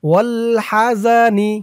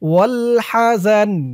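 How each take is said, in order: First: The word ends with an added i vowel. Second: The word ends on a bare n sound. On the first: The reader continues without stopping. "এখানে না থামলে তাহলে উচ্চারণ হতো" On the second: The reader stops at this word. "এখানে অক্ফ করার কারণে নুনের নিচে জেরটা সাকিন হয়ে গেছে"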